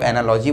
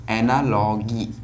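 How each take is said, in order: First: "एनालॉजी" with a soft j sound, ending in -jee; soft-g variant. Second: "एनालॉजी" with a hard g, slowly drawn out; hard-g pronunciation. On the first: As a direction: say "एनालॉजी" with the g as in gem. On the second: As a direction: say "एनालॉजी" slowly, ending in -gee as in geese. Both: Shown as a demonstration. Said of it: "कुछ लोग एनालॉजी बोलते हैं".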